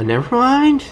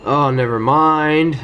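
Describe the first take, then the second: First: High squeaky never mind. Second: Said in the usual way. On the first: Real, not acted. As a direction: squeak it out in a silly voice. Repeats in a squeaky voice.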